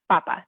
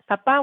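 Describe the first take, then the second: First: The stress is on the first syllable. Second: The stress is on the last syllable. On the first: It means potato. "But this is just papa" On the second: It means dad. "Papa with the accent on the end means dad"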